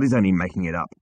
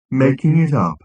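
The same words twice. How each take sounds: First: Said in the usual way. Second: Louder, higher robot echo; mock astonishment. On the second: A narrator's reading. Marvin echoing Zaphod's accusation, mock astonishment. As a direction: throw it back in droning mock disbelief. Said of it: "in a parody of astonishment".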